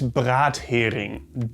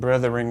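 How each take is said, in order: First: It is split as brat plus hering. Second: It is read like an English word, breth-ering. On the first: It means a fried herring. The speaker calls it right. "It is Brathering" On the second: It reads as an unknown English word. The speaker calls it wrong. "I don't know that English word"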